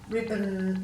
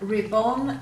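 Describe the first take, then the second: First: The second vowel is reduced to a schwa. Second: The second vowel is full, as spelled. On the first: This is how it is normally said. "We tend to give a schwa sound" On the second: It makes the spelling easier. "if you say them correctly as they've spelt"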